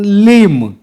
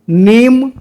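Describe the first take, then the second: First: The word begins with an l sound. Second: The word begins with an n sound. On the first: This is the Surgujia form. "ओला हमन कथन" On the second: This is the standard form. "न कर जगह में ल"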